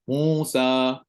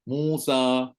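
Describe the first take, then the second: First: The final vowel is said with mouth wide open. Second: The final vowel is said with mouth wide open.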